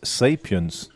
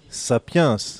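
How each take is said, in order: First: The word is pronounced the English way. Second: The word is pronounced the French way. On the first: "Word of the day, well, is sapience" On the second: "in French, sapience, which is the same word pronounced differently"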